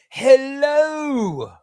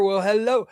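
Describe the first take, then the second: First: A high, louder, drawn-out hello; hammy hello. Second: Said in the usual way. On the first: Real, not acted. Streamer greeting a chatter with a hammed-up, high, louder hello. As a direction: stretch the hello out big and playful.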